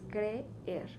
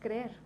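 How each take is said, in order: First: The two e sounds are said separately. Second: The two e sounds are blended into one. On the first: The speaker calls it right. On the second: The speaker calls it wrong. "Tú no dices creer, no"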